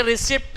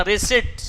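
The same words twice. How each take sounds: First: रिसिप्ट with the p sounded, re-sep-pt; wrong way. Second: रिसिप्ट as ri-sit, no p at all; silent p. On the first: Teacher showing students the wrong way, p sounded in रिसिप्ट. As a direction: say रिसिप्ट the wrong way, p clearly voiced. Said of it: "ये रिसिप्ट नहीं पढ़ा जाता". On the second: Teacher correcting students, रिसिप्ट with silent p. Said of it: "इसमें पी silent होता है". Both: Shown as a demonstration.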